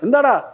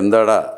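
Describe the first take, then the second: First: It is said in a higher-pitched voice. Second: It is said in a deep, bass voice. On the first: The way a local tough from Kochi would ask it. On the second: An ordinary question in the usual villain voice.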